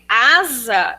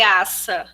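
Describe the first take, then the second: First: The middle consonant is a voiced z sound. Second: The middle consonant is a voiceless s sound. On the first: This is how the word should be read. The speaker calls it right. "quando ele lê asa" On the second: The reader converts each letter to one fixed sound. The speaker calls it wrong. "ele lê aça"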